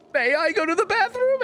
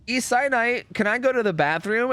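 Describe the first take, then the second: First: Exaggerated high-pitched pupil's correction; mock-proper request. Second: Higher-pitched pupil's question; pupil asking. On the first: Pupil corrects himself for teacher, hammed-up high mock politeness. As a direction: overdo the corrected question, very high. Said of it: "And I was like". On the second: Retold or imitated. Pupil asks teacher for the bathroom, higher-pitched mock child. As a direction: ask innocently, pitched up, as a pupil. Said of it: "And then you were like".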